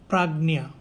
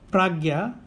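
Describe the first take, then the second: First: The middle cluster is pronounced like 'ny'. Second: The middle cluster is pronounced like 'gy'. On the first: This is the South Indian pronunciation. "in South India, the Gya is pronounced as Nya" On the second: This is the North Indian pronunciation. "in North India, you can also Pragya"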